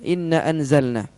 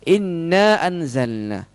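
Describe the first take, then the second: First: It is read quickly with the long vowels cut short. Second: It is read steadily with the long vowels held. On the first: The meaning is changed. The speaker calls it wrong. "Dengan cepat, maka artinya beda" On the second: It means indeed we. The speaker calls it right. "sesungguhnya kami"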